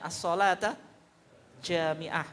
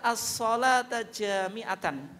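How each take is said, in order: First: The last word ends in a clipped -ah sound. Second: The last word ends with a full -atan ending. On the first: "Kalau diwakafkan" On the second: "Boleh juga dibaca"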